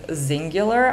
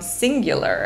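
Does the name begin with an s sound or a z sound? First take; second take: z sound; s sound. First: The name begins with a z sound. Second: The name begins with an s sound. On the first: The speaker calls it right. "or as she says" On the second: The speaker calls it wrong. "I have been mispronouncing Zingular this whole time"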